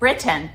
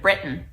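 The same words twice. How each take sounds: First: The middle T is pronounced clearly. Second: The middle T is softened, not clearly pronounced. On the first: The speaker calls it right. "I try to say Britain ... Pronounce those T's" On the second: The speaker calls it wrong. "instead of Britain"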